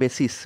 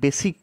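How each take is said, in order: First: The word ends with an s sound. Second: The word ends with a k sound. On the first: The speaker calls it right. "Proper এর pronunciation হচ্ছে বেসিস" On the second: The speaker calls it wrong. "এটাকে অনেকে বেসিক বলে উচ্চারণ করে"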